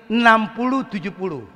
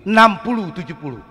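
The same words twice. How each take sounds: The two takes are said the same way.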